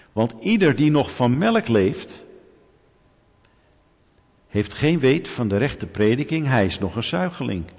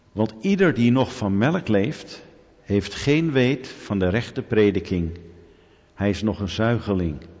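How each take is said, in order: No difference in how they are said.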